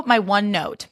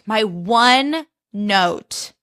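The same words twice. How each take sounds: First: Said in the usual way. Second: Very slow, each word drawn out; dragging the words out to make a point; slow emphatic. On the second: Shown as a demonstration. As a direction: stretch my one note out for weight.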